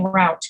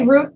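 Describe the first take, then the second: First: "route" rhyming with "out"; route as rout. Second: "route" rhyming with "boot"; route as root. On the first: Teacher gives other people's version, "route" like "out". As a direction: say "route" with an OW vowel. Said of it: "many people are raised saying route". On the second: Teacher gives own upbringing's version, "route" as "root". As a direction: say "route" with a long OO vowel. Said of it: "because that's the way I was raised". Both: Shown as a demonstration.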